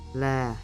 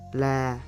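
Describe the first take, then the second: First: The pitch stays flat in the mid range. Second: The same.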